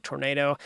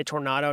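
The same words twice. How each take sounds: First: Tornado with an "ay" in the middle; tornado, second syllable rhyming with "day"; tor-NAY-do. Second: Tornado with an "ah" in the middle; tornado, second syllable rhyming with "spa"; tor-NAH-do. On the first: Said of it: "not tornado". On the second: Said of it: "Why do I say tornado". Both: Shown as a demonstration.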